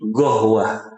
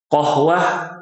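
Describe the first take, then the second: First: The word begins with a hard g sound. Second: The word begins with a deep q sound. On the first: "huruf qaf diganti dengan g" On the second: "huruf qaf"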